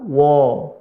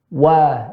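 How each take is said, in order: First: The vowel is a rounded 'o' sound. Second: The vowel is an open 'a' sound. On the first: The speaker calls it wrong. "Jangan ketika wa, wo" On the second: The speaker calls it right. "tapi wa"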